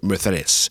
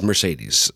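First: The middle consonant is a th sound. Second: The middle consonant is an s sound.

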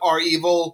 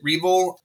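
First: It starts with the letter R, then 'evil'. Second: It is said as one two-syllable word. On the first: This is the pronunciation the group itself preferred. "some people pronounced it R-Evil" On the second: This is the speaker's own habitual pronunciation. "I always called it Reval"

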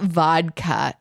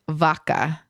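First: The word is said with a clear D sound. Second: The word is said in two syllables without D. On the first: The speaker calls it wrong. "It's not vodka" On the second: The speaker calls it right. "It's just a two syllable. There's no D"

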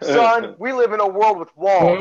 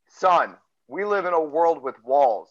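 First: It is said at a normal, faster pace. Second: It is said more slowly.

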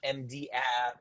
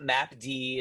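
First: It is said as letters M, D, then app. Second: It is said as map followed by letter D. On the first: "it's not MD app" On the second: "It's not map D"

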